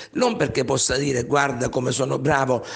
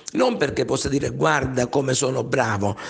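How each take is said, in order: No difference in how they are said.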